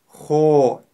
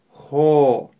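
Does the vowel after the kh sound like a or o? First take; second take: o; o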